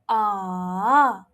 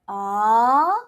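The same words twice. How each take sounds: First: The pitch dips low, then rises. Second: The pitch rises from middle to high.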